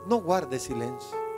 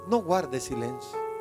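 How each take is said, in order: First: It is said in a calm, poetic tone. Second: The same.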